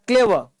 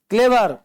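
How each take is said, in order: First: क्लेवर said as klevuh, final r dropped; silent r in clever. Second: क्लेवर said with a clear r at the end; clever with the r sounded. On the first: Teacher shows students the right clever, silent r. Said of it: "आर चुप रहता है". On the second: Teacher shows students the wrong clever, r sounded. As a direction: say क्लेवर the wrong way, rolling the final r. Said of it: "तो क्लेवर नहीं बोलते". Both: Shown as a demonstration.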